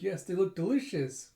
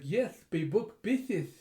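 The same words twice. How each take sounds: First: Said in the usual way. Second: Slow, higher, garbled through a mouthpiece; muffled, mushy consonants, drawn out; snorkel-mask talk. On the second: Retold or imitated. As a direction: lisp it with a snorkel in your mouth. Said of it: "with her snorkeling mask".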